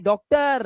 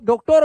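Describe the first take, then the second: First: डॉक्टर slowly, ending in "tur"; correct ending. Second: डॉक्टर as "dok-tore"; wrong ending. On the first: (डॉक्टर के अंत में अ, धीरे से) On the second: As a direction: act out the mistake with long O in डॉक्टर. (डॉक्टर को "डॉक्टोर" बोलना) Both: Acted. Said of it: "नहीं, डॉक्टर".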